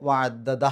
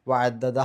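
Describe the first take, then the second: No difference in how they are said.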